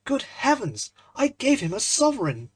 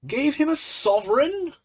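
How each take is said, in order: First: High, loud cry of dismay; a startled young man realising his blunder; dismayed gasp. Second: Much higher and louder, a disbelieving shout; incredulous shout. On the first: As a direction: blurt it out, aghast at the mistake. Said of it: "the picture of dismay". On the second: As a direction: fling the words back at him, half laughing. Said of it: "shouted Trevor". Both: Acted.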